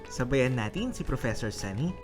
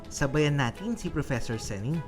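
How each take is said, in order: No difference in how they are said.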